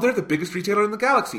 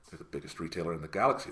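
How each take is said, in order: First: It is said with eager, excited enthusiasm. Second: It is said with scornful, disdainful contempt. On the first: The speaker admires the company. The speaker calls it wrong. "I hear her saying that with, like, vigor" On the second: The speaker despises the company. The speaker calls it right. "I hear every other Doctor in my head going"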